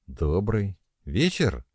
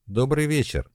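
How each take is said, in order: First: Slow, relieved greeting; relaxing. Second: Said in the usual way. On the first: Acted. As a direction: let the tension go as you answer. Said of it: "расслабляясь". (медленно, с облегчением) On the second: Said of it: "сказала Натка".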